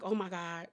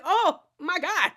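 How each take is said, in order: First: Hushed oh my God. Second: Overwhelmed oh my God. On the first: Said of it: "like, I was like". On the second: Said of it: "Like, I was just like". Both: Retold or imitated.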